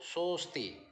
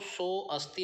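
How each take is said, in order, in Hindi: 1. 'o' के बाद का 'a' स्वर मूक है। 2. 'o' के बाद का 'a' स्वर उच्चरित होता है। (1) "ऐसे पढ़ना है कि अ की साउंड ना आए" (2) "सो अस्ति नहीं पढ़ेंगे"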